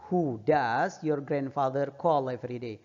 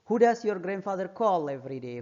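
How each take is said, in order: First: Slow, careful reading for learners; teacher slowing down the sentence; slow model reading. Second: Said in the usual way. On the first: Shown as a demonstration. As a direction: read it slowly so students can repeat. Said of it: "teacher reads answer slowly". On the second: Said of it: "repeated at normal pace".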